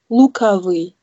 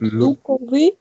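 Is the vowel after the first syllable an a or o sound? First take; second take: a; o. First: The second syllable has an a sound. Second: The second syllable has a clear o sound. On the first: The speaker calls it right. "sagt man Lukawi" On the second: The speaker calls it wrong. "anstatt Lukowi, wie man schreibt"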